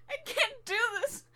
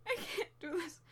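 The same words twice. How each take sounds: First: Higher, crying voice; crying, voice breaking; tearful. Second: Much softer, almost giving up; quiet, drained despair; soft and defeated. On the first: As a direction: say it through tears. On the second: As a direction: drop to a quiet hopeless murmur. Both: Acted. Crying over failures.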